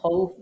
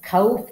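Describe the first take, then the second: First: The first vowel is a short a. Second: The first vowel is a long open aa. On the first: The speaker calls it right. "বলেন খউফ বলেন সুন্দর করে" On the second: The speaker calls it wrong. "খাউফ কি বলা যাবে? খা কি বলা যাবে?"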